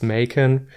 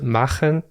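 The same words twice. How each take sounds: First: The name is pronounced the English way. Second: The name is pronounced the German way. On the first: "since he's British, it's probably pronounced" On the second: "I'm German, I would pronounce it"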